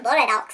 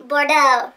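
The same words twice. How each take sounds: First: Bordeaux said as "bor-dahks"; mispronounced Bordeaux. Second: Bordeaux said loudly as "bor-doh"; emphatic Bordeaux, silent x; corrected Bordeaux. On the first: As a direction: slip and say Bordeaux with an "ah" ending. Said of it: "I say Bordeaux". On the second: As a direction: punch Bordeaux with a long "oh" ending. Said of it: "Excuse me". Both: Real, not acted.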